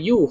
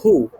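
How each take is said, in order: First: The syllable begins with a y sound. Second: The syllable begins with an h sound. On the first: The speaker calls it wrong. "bukan you" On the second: The speaker calls it right. "hu. Hu, H, U"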